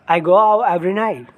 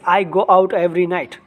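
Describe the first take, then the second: First: The t sounds are cut off. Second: The t sounds are clearly pronounced. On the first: "They will cut off tea" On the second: "We will say like this"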